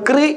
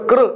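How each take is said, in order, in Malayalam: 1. ഈ അക്ഷരം 'kri' പോലെയാണ് ഉച്ചരിക്കുന്നത്. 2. ഈ അക്ഷരം 'kru' പോലെയാണ് ഉച്ചരിക്കുന്നത്. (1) "ക്രി അല്ല" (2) "മറിച്ച് കൃ"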